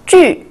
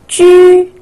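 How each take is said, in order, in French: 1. Le ton tombe brusquement depuis le haut. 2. Le ton reste haut et stable.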